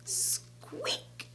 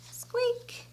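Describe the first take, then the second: First: Tiny hushed squeak, drawn-out start; whispered mouse squeak. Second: High, soft little squeak; mouse squeak. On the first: Storyteller voices the mouse after the snap, whispered squeak. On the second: Storyteller voices the mouse for children, high soft squeak. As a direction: squeak lightly like a tiny mouse. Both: A narrator's reading.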